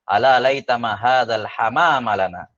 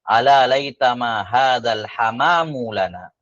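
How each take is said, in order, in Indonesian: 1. Kata hamam berakhir dengan vokal a. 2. Kata hamam berakhir dengan vokal u. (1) "al-hamama mansub" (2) "dibaca marfu"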